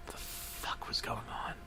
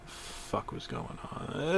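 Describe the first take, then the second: First: Very soft hushed whisper. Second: Slow, hushed, confused whisper; whispered aside. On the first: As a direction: whisper it, baffled. Confused whispered aside. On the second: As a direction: whisper it under your breath. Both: Acted.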